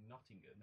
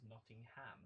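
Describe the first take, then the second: First: Said in the usual way. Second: Nottingham with a full "ham" at the end; mispronounced Nottingham. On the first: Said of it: "decides to keep pronouncing Nottingham". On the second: Retold or imitated. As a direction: say Nottingham as Notting-HAM, last vowel unreduced. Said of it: "keep pronouncing Nottingham as Nottingham".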